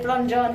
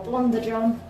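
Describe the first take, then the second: First: The name is said in a plain, ordinary way. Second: The name is said in an imitated, put-on way. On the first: The speaker calls it wrong. "I've been saying it wrong all this time" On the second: The speaker calls it right. "I want to say it like Gertrude"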